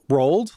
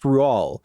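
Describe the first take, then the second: First: The name sounds like the English word rolled. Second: The name sounds like roo-al, with no final d. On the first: The speaker calls it wrong. "the way it's written, it looks like roll, rolled" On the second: The speaker calls it right. "apparently it's pronounced Rual"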